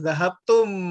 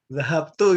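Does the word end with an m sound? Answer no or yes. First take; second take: yes; no. First: The word ends in tum, with a final m. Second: The word ends in tu, without a final m. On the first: "maksudnya dia zahab tum" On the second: "orang Saudi Arabia beda... dia nggak mau bilang M-nya"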